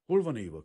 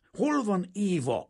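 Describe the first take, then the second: First: Rigid, clipped demand; stiff question. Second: Much higher, louder, slow bellow; roaring shout. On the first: Kazimír stiffly asks the father where Éva is, rigid. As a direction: ask it stiffly, holding back. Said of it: "kérdezte mereven". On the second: Kazimír roars at the little bald father, full shout. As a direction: roar the question at him. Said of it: "ordított föl Kazimír". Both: A narrator's reading.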